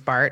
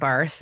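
First: The name ends with a plain t sound. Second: The name ends with a th sound. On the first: The speaker calls it right. "Is Bart" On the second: The speaker calls it wrong. "not Barth"

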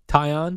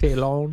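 First: The middle consonant is pronounced as a Y. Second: The middle consonant is pronounced as an L. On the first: The speaker calls it right. "So the two L's are a Y sound" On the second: The speaker calls it wrong. "It's not Talon"

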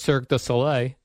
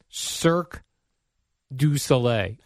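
First: The phrase is said quickly and smoothly. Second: The phrase is said slowly and carefully. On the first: The speaker calls it right. "If I say it fast, I think I do it right" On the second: The speaker calls it wrong. "As opposed to when you overthink it"

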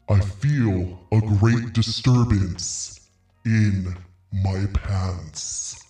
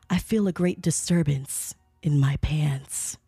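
First: It is said in a put-on voice. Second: It is said in a normal voice.

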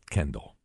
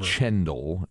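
First: The name begins with a 'k' sound. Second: The name begins with a 'ch' sound. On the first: The speaker calls it right. "It's Kendall" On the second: The speaker calls it wrong. "Not Chendall"

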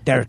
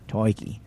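First: It is said with an Argentinian accent. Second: It is said with an Australian accent.

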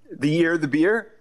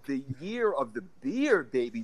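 First: It is said hesitantly, like a question. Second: It is said confidently and with enthusiasm.

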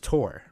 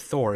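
First: The name begins with a plain 't' sound. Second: The name begins with a 'th' sound. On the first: This is the original Norse way to say it. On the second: This is the usual English way to say it.

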